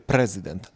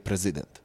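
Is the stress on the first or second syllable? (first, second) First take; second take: first; second. First: The stress is on the first syllable. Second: The stress is on the second syllable. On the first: The speaker calls it right. "Mówi się prezydent" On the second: The speaker calls it wrong. "a nie prezydent"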